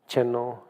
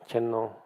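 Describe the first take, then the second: The two takes are said the same way.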